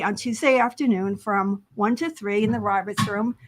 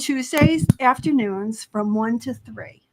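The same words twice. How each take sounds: First: A quick run through the schedule; kind of fast. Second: Slow, deliberate repeat of the schedule; unhurried, so listeners can catch it. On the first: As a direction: rattle off the day and hours. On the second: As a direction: spell out the day and hours slowly. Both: Real, not acted. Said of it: "you said it kind of fast".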